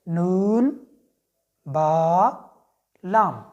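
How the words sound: A pause separates each letter name. The speaker calls it right. "तो हमने इसको one by one पढ़ना है"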